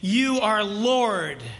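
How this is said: It is said openly and sincerely.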